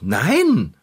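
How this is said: It is said firmly and convincingly.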